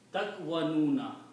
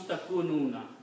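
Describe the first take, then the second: First: A 'wa' sound follows the k. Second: A plain 'u' vowel follows the k. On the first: This is the form built strictly by the grammar. "So it will be Takwanuna" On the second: This is the form actually used because it is easier to say. "So this word becomes Takununa"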